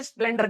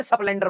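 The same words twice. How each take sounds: First: Said in the usual way. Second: स्प्लेंडर said as e-splender, with an e slipped in before the sp; local pronunciation. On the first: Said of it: "हमारे यहाँ पे स्प्लेंडर नहीं बोलते". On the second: Shown as a demonstration. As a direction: desi स्प्लेंडर, the vowel added up front: esplender. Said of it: "स्प्लेंडर बोलते हैं".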